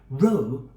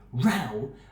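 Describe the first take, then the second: First: The vowel rhymes with the word no. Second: The vowel rhymes with the word now. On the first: A straight line of people or things. "when pronounced like no" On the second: A loud, angry argument. "when pronounced like now"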